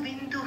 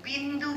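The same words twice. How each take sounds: The two takes are said the same way.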